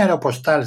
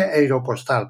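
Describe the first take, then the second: First: Said in the usual way. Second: AEROPOSTAL empezando como "ero", a la inglesa; pronunciación inglesa. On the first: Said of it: "No se dice aeropostal". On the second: Shown as a demonstration. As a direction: say "aeropostal" as "eiropostal". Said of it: "se dice aeropostal". ("aeropostal" dicho "eiropostal", a la inglesa)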